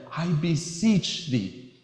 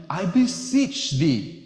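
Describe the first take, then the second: First: "beseech" said very slowly and heavily; slow solemn plea. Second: "beseech" stretched slow and leaned on; earnest plea. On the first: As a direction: draw "I beseech thee" out, pressing "beseech". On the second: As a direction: draw out "I beseech thee" with weight on "beseech". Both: Shown as a demonstration. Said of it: "There's just a certain power to that".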